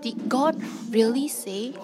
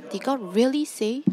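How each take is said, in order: First: Did God really say, with God pressed and falling; stress on God. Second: Did God really say, with really pressed; stress on really. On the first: Preacher showing Satan's doubt, God stressed. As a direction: lean on God, let the question drop. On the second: Preacher showing Satan's doubt, really stressed. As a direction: lean on really to sow doubt. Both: Shown as a demonstration. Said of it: "preacher repeats Satan's question, stressing words".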